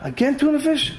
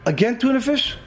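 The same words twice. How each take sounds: First: Boil over at the same lunch again; angry outburst. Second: Higher, fed-up complaint about lunch; a worker's irritated groan at his sandwich; exasperated. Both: Retold or imitated. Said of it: "He got so angry".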